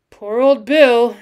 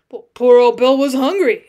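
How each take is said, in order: First: Loud, slow lament; mournful exclamation. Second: Loud protest for the dead pet; defensive interruption. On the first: Cowboy laments the dead lion, mournfully. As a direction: draw it out mournfully, falling at the end. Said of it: "he exclaimed mournfully". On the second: Cowboy interrupts to defend dead lion, defensively. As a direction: cut in loudly in defense. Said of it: "interrupted Gibbons in quick defense of the deceased". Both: A narrator's reading.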